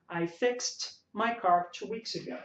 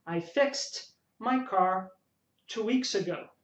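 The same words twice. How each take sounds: First: Said in the usual way. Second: Slow model line, fixed said fikst; slow teacher model with fixed ending in t; slow demo sentence. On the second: Shown as a demonstration. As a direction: spell out fixed slowly for students. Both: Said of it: "Então você vai falar fixed".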